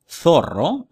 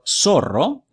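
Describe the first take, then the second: First: The z is said like English th. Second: The z is said like English s. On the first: This is how it is said in Spain. "as they would say in Spain" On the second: This is how it is said outside Spain. "as they would say in the rest of the world"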